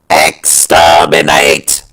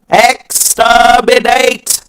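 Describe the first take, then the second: First: The robotic voice is pitched lower. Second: The robotic voice is pitched higher. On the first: "the sixties Daleks are more down here" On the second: "this is around sort of the Remembrance voices"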